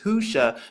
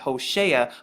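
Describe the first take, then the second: First: The name is said with two syllables, hu-sha. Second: The name is said with three syllables, ho-she-a. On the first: This is how the letters actually read. The speaker calls it right. "you see that it's pronounced Husha" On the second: This is how the dictionary renders it. The speaker calls it wrong. "they pronounce it Hoshea"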